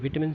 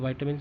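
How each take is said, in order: First: The first vowel sounds like 'i' in bit. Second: The first vowel sounds like 'ai' in bite. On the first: "कोई विटामिन कहते हैं" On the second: "कोई वाइटामिन कहते हैं"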